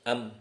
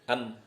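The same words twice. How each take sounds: Both takes have the same delivery.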